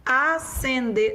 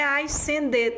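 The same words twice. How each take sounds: First: Acender said a-sen-der with one S sound; Acender, no S before the C; correct pronunciation. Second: Ascender with an extra S, like ais-sen-der; wrong pronunciation. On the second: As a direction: say ascender sounding both the S and the C. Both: Shown as a demonstration. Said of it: "não é ascender".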